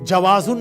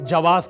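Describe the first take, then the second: First: The word ends with an added -un sound. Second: The word ends without any -un sound. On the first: This is the formal written standard form. The speaker calls it wrong. "Passport का जवाजुन नहीं कहेंगे" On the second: This is how Arabs say it in conversation. The speaker calls it right. "जवाज कहेंगे"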